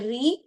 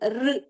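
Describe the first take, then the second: First: An r sound followed by an e vowel. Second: A bare r sound with no added vowel. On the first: The speaker calls it wrong. "It is not a re" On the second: The speaker calls it right. "it is R"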